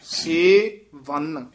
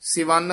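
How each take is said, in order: First: The two parts are said separately with a break. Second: The two parts run together as one word. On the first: The speaker calls it right. "ਵੱਖਰਾ ਪਾਠ ਬੋਲਣਾ" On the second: The speaker calls it wrong. "ਇਕੱਠਾ ਨਹੀਂ ਕਹਿਣਾ"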